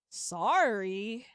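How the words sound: It sounds sarcastic and mocking.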